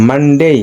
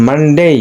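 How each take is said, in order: The two takes are said the same way.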